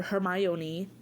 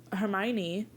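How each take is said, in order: First: Hermione said as her-MY-oh-nee with an extra oh; Krum's mispronunciation. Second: Said in the usual way. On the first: Retold or imitated. Victor Krum calling Hermione, mispronounced as her-my-oh-nee. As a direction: Hermione stretched to four syllables, her-my-OH-nee. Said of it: "which is what he calls her". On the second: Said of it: "or Hermione".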